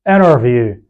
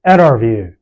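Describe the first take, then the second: Both takes have the same delivery.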